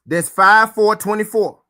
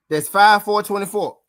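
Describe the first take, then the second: First: Loud, slow, hammering the date five four twenty-four; stressed date. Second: Five four twenty-four said again, a bit less forcefully; firm repeat of five four twenty-four; repeated date. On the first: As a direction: spell out five four twenty-four slowly and loudly, every word landing. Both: Shown as a demonstration. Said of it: "That's the fifth".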